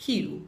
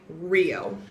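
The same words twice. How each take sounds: First: Rio starting with an H sound, "hee-o"; Portuguese H-like R. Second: Rio with an English R sound at the start; English pronunciation. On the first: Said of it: "actually make an H sound". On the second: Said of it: "R makes an er sound in English". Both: Shown as a demonstration.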